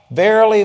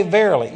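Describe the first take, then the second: First: "Verily" luid en nadrukkelijk uitgeroepen; loud proclaimed verily. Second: Said in the usual way. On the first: Shown as a demonstration. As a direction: call out "Verily" loud and strong. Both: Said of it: "every time the Lord said".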